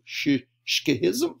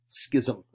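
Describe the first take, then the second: First: The word begins with an sh sound. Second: The word begins without an sh sound. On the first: The speaker calls it wrong. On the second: The speaker calls it right. "That's how you pronounce that word"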